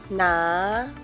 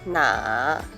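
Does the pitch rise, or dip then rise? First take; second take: rising; dipping. First: The pitch rises from mid to high. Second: The pitch dips low, then rises. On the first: "I will pronounce the second tone first" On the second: "third tone"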